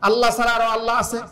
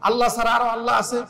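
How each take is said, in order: No difference in how they are said.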